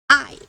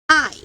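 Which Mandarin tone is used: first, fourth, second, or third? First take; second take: fourth; fourth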